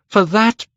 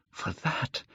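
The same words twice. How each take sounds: First: High, loud outburst; cried out. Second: Breathless whisper. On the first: Dorian crying his wish aloud after a whisper. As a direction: burst it out. Repeated phrase, cried take. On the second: Dorian whispering his wish before crying it out. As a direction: hush it out. Repeated phrase, whispered take. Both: A narrator's reading.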